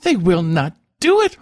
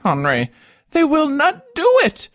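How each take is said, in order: First: High, loud and tearful; a spoiled child close to crying; tearful stammer. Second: Much higher, louder, breaking into a wail; a spoiled child's sobbing plea; tearful wail. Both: A narrator's reading. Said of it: "with a voice full of tears".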